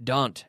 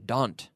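No difference in how they are said.

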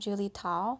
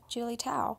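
First: The name 'Tao' is said with a Chinese-style pronunciation. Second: The name 'Tao' is said with an English-style pronunciation. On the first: This is how the name is said in Chinese, as her father says it. The speaker calls it right. "which is how you say it in Chinese" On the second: This is the habitual, anglicized way the speaker has said her name. The speaker calls it wrong.

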